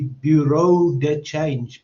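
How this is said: The term is pronounced with English sounds. "if you would pronounce it in English"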